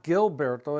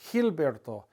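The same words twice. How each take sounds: First: It begins with a J sound. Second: It begins with an H sound. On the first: The speaker calls it wrong. "it's not Gilberto" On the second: The speaker calls it right. "kind of pronounced like the H sound"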